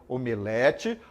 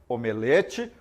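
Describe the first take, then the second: Both takes have the same delivery.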